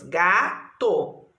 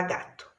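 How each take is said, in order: First: Gato in two beats, long ga, then to; syllable by syllable. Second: Said in the usual way. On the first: Shown as a demonstration. Teacher counting syllables in gato, syllable by syllable. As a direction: separate gato into ga and to. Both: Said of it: "Quantas sílabas tem gato?".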